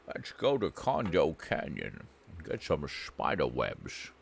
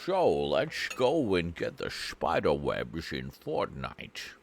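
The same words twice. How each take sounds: First: Lower, softer Scottish accent imitating a friend; lightly voiced lower Scottish imitation; imitating Funk Monk. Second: Slow, rolling Scottish brogue in the style of Sean Connery; slow mock Scottish Sean Connery voice; Sean Connery impression. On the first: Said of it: "It's exactly what Funk Monk sounds like". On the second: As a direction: drawl it out slowly like a Scottish film star. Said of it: "He put you as Sir Sean Connery".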